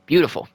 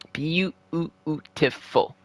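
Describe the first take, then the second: First: Said in the usual way. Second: Beautiful stretched very slow and soft; slow savouring murmur of Beautiful; drawn-out beautiful. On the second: Real, not acted. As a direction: draw out Beautiful like you're savouring it. Savouring the power play goal.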